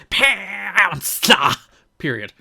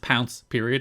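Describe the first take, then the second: First: It is said dramatically, with heavy emphasis. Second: It is said flatly, with little emphasis. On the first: "It wasn't like pounce period" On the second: "didn't have the same quite emphasis here. It was literally just pounce period"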